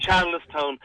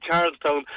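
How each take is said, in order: First: Charlestown with an extra vowel, Char-les-town; local two-syllable Charles. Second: Charlestown with Charles as one syllable, Charlz-town; standard pronunciation. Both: Shown as a demonstration. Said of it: "instead of Charlestown".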